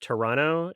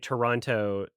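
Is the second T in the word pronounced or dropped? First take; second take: dropped; pronounced. First: The second T sound is dropped. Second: The second T sound is pronounced. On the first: This is how locals like it said. The speaker calls it right. "as if you don't say the second T" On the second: Locals dislike hearing it said this way. The speaker calls it wrong. ""That's bad.""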